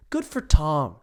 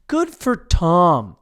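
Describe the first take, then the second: First: Said in the usual way. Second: GOOD FOR TOM drawn out slowly and louder; emphatic repeat. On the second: Real, not acted. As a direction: stretch "Good for Tom" with loud, slow approval.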